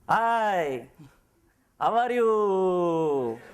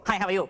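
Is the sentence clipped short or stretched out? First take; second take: stretched out; clipped short. First: It is stretched out in an Indian style. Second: It is clipped short in a Chinese style.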